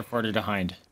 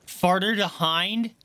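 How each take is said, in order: First: Said in the usual way. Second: Incredulous self-mockery. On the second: Real, not acted. Streamer catching their own slip, slow incredulous question. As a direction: repeat your own slip in disbelief.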